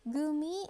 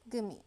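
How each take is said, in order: First: Both words are said fully and separately. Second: The words blend together with the v sound dropped. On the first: "Gimme is elided to" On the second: "elided to gimme"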